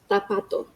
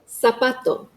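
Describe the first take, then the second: First: It begins with a 'th' sound. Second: It begins with an 's' sound.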